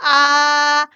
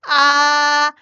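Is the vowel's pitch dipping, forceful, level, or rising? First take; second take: level; level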